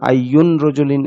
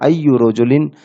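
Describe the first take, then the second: First: The first word ends with an n sound. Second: The first word ends with a vowel. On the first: The speaker calls it wrong. "এরকম হবে না" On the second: The speaker calls it right. "কারণ মুদাফের শেষে তানবিন হয় না"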